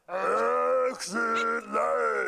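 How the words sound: It is said in a Sesame Street voice.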